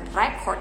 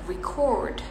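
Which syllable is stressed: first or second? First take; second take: first; second. First: The stress is on the first syllable. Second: The stress is on the second syllable. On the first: The speaker calls it wrong. "bukan record" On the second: The speaker calls it right. "merekam gitu"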